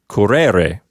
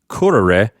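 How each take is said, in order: First: The stress is on the second syllable. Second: The stress is on the first syllable. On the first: The speaker calls it wrong. "So this is not pronounced curere" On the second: The speaker calls it right. "with the accent on the first syllable"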